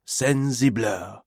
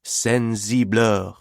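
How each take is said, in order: First: Sensibleur repeated slow and softer in French; French pronunciation, softer. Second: Sensibleur said slowly with a French nasal vowel; French pronunciation. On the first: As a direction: echo sensibleur quietly the French way. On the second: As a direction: drawl Sensibleur the French way, slow. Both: Shown as a demonstration. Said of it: "The word sensible is repeated over and over".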